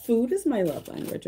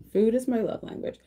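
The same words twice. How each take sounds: First: Is pushed higher; stress on is. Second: Food hit high and firm; stress on Food. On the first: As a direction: lean on the word is. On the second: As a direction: punch the word Food. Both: Shown as a demonstration.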